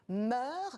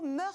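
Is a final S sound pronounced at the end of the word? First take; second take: no; yes. First: The word ends without an S sound. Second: The word ends with an audible S sound. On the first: This follows the official rule. "La règle officielle est de ne pas prononcer le S final" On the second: This follows common usage and the Latin origin. "la prononciation mœurs, c'est peut-être incorrect"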